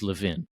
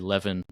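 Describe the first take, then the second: First: The stress is on the second syllable. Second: The stress is on the first syllable. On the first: The speaker calls it right. "the second syllable is stressed" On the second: The speaker calls it wrong. "it's okay for them to be wrong, but they are wrong"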